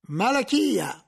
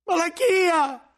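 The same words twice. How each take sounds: First: A firm, raised call of the name; stern summons. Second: Very high, loud, slow desperate cry of the name; anguished scream. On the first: Inquisitor calls the librarian forward, stern summons. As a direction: summon him with authority. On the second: Cellarer screams at the librarian for betraying him. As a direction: scream his name in panic. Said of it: "urlò il cellario". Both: Acted.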